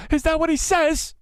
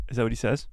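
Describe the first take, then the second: First: High squeal. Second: Said in the usual way. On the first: Real, not acted. Same question repeated, squeaked high.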